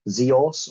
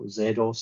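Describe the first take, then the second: First: The name is said the non-British way. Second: The name is said the British way.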